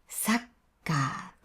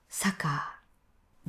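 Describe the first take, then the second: First: The k sound is held for an extra beat. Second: The k sound is short with no extra beat. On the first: The speaker calls it right. "ちゃんと長く言うようにしてください" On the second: The speaker calls it wrong. "全然違う音なんです"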